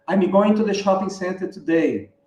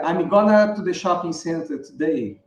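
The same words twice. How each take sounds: First: Said in the usual way. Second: "going to" reduced to a joined-up "gonna"; native-style reduction. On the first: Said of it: "ele não vai dizer". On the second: Shown as a demonstration. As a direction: link the words like an American native, "gonna". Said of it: "um americano nativo fala". ("gonna" emendado, como um americano nativo)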